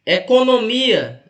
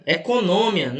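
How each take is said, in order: First: "Economia" said slowly, stress on the "mi" syllable; correct stress. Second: "econômia" with the stress wrongly on "nô". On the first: Teacher reading the quiz word aloud: slow, careful "Economia". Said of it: "isso aqui não existe". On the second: Teacher shows the class the wrong spelling: "econômia" stressed on "nô". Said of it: "isso aqui não existe, tá errado". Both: Shown as a demonstration.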